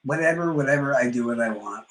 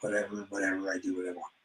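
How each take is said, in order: First: Said in the usual way. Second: Much softer, trailing off; dismissive fading whatever; fading mumble. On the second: Retold or imitated. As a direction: let the repeat die away to a mutter. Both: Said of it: "I keep telling him".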